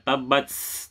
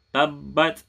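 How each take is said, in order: First: The t is released with a strong hiss. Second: The t is released with a light breath. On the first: The speaker calls it wrong. "Not like tabats" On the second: The speaker calls it right. "but not too much"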